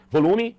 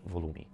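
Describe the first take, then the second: First: "Volume" thrown out high and loud; louder volume. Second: "volume" dropped soft and low; lower volume. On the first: Coach demonstrating volume, "Volume" said loudly. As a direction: punch "Volume" out strongly. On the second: Coach demonstrating volume, "volume" said quietly. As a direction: bring "volume" right down. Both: Shown as a demonstration. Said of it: "Volume, tom e velocidade".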